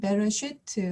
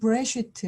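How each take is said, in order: First: A short e vowel follows the first b. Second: No vowel is heard after the first b. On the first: The shewa is treated as voiced. "어떤 책에서는 베레시트 하고" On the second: The shewa is treated as silent. "브레시트 하고 으로 표기를 하는"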